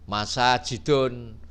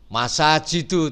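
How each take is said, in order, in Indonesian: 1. Kata ini berakhir dengan bunyi n tambahan. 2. Kata ini berakhir dengan bunyi u biasa.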